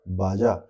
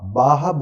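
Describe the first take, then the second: First: The middle consonant is a j sound. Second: The middle consonant is an h sound. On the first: This is how it is written. "लिखा जाता है बाजा" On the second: This is how local people say it. "बाहा बोलते हैं"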